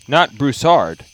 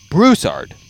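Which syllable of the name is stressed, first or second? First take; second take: second; first. First: The stress is on the second syllable. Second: The stress is on the first syllable. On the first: The speaker calls it wrong. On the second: The speaker calls it right. "it's Broussard, The emphasis is on the ooh"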